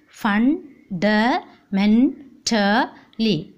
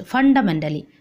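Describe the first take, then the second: First: Very slow "Fundamentally" in five separate beats; long pauses between the syllables of "Fundamentally"; split into syllables. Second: Said in the usual way. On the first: Shown as a demonstration. Teacher counting five syllables for class, very slow syllable by syllable. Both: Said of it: "One, two, three, four, five".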